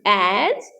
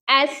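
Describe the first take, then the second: First: The word ends with a z sound. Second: The word ends with an s sound. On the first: The speaker calls it right. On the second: The speaker calls it wrong.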